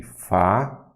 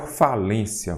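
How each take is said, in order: First: "Falência" broken up with long pauses; syllable by syllable. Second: Said in the usual way. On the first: Shown as a demonstration. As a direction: spell out "Falência" by sound, fa, lên, cia. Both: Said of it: "Vamos aqui".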